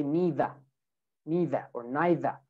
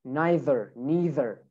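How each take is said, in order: First: "neither" without R, NEE-thuh or NYE-thuh; British pronunciation. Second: "neither" with final R, NYE-ther, NEE-ther; American, R added. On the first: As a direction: drop the R ending "neither". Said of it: "But in U K". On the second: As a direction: sound the R ending "neither". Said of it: "we add the R". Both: Shown as a demonstration.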